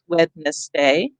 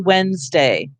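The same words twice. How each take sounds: First: Every letter is sounded, including the first d. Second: The first d is dropped, sounding like Wenzday. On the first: This is a spelling aid, not everyday speech. "I will think Wednesday" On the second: This is how people normally say it. "We say Wednesday"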